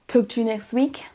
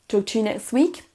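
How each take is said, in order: Both takes have the same delivery.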